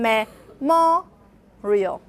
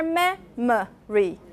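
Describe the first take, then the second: First: "memorial" very slow, syllable by syllable, MO high; stress on second syllable. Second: "memory" syllable by syllable, MEM high and long; stress on first syllable. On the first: Teacher showing students shifted stress, MO stressed in "memorial". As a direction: break up "memorial", lifting and stretching the MO. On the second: Teacher showing students shifted stress, MEM stressed in "memory". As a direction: break up "memory" slowly, lifting the MEM. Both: Shown as a demonstration. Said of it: "making the stressed one higher".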